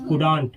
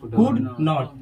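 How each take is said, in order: First: It is said as one contracted word. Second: It is said as two full words. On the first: "कुड नॉट क्या होता है कुडंट" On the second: "कुड नॉट क्या होता है"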